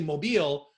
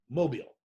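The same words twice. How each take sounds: First: The stress is on the second syllable. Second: The stress is on the first syllable. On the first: This is how an outsider says it. "where I say mobile" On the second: This is how the locals say it. "they say it mobile ... accent is on the mo, not the beal"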